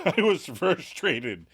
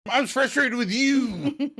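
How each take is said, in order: First: Slow, mildly frustrated admission; Monica, frustrated. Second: Very high, slow mock outburst; Monica, exasperated. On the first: Retold or imitated. Monica explaining herself to Chandler, mildly frustrated. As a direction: imitate confessing frustration slowly, a little higher. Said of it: "Monica reveals". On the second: Monica blaming Chandler in a quarrel, exasperated. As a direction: imitate escalated frustration, pitched way up and stretched. Acted quarrel, frustration escalates.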